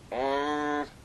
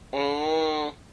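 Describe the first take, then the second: First: The vowel is nasalized and sounds muffled. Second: The vowel is nasalized and sounds muffled.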